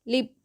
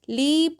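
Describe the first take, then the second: First: The vowel is short and light. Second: The vowel is long and drawn out. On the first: The speaker calls it right. "शॉर्ट बोलते हैं, यानी थोड़ी देर के लिए" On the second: The speaker calls it wrong. "लीप नहीं हो रही है"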